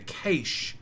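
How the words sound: It is said with the Australian pronunciation. "in Australia we say cache"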